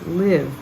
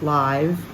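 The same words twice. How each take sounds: First: The vowel is a short I sound. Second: The vowel is a long I sound. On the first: The speaker calls it right. "we're going to have a short I" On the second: The speaker calls it wrong. "This time it's not live"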